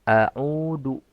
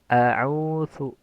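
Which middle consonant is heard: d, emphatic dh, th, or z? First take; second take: d; th. First: The middle consonant is a plain d sound. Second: The middle consonant is a light th sound. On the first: "jangan mengganti huruf zal menjadi huruf dal" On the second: "Jangan juga mengganti dengan sa. ... terlalu ringan"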